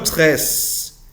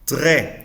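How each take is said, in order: First: The final S sound is pronounced. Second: The word ends without an S sound. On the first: The speaker calls it wrong. "no tres" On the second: The speaker calls it right. "sin la S"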